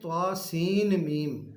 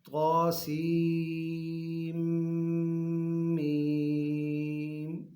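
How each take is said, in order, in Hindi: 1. 'seen' का 'n' 'meem' से पहले अलग से बोला जाता है। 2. 'Seen' 'meem' में मिल जाता है, इसमें 'n' की आवाज़ नहीं होती। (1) "सीन को अलहदा पढ़ते हैं, मीम के साथ मिलाते नहीं हैं।" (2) "इसको मिला के पढ़ना है"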